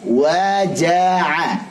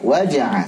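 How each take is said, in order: First: The 'ja' syllable is open with a full vowel. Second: The 'ja' syllable is clipped with no vowel. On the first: The speaker calls it right. "jelas. ... baik" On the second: The speaker calls it wrong. "jangan sampai ... salah, wajah"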